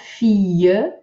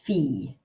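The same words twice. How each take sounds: First: The word is split into two syllables. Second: The word is said as one syllable. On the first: The speaker calls it wrong. "not fille" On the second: The speaker calls it right. "just fille"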